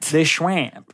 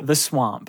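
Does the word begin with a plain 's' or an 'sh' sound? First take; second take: sh; s. First: The word begins with a 'shw' sound. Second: The word begins with a plain 'sw' sound. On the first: It is said this way for fun. "It's just funnier to say, more fun to say Schwamp" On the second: It is the ordinary way to say it. "Can you say it normally?"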